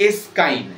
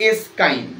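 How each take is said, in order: Both takes have the same delivery.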